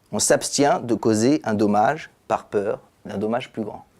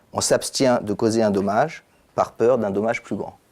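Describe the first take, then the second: Both takes have the same delivery.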